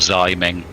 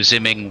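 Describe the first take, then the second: First: The name rhymes with timing. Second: The name does not rhyme with timing.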